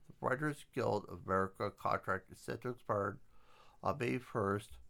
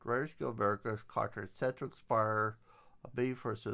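First: The words are articulated crisply and very distinctly. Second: The words are articulated in a casual, ordinary way.

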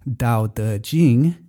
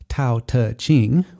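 First: The first consonant is voiced with throat vibration. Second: The first consonant has a puff of air. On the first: "your throat is vibrating" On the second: "with the puff of air"

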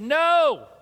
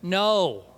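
First: It is shouted loudly. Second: It is said more quietly.

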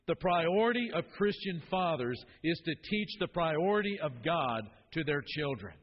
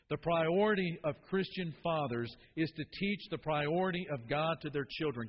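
First: It is said with loud, high energy. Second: It is said with plain, ordinary energy.

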